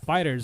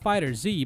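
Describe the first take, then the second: First: It ends in a plain plural z sound. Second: It ends with the separate letter Z. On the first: The speaker calls it right. "we're pronouncing it as Fighters" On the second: The speaker calls it wrong. "and not Fighter Z"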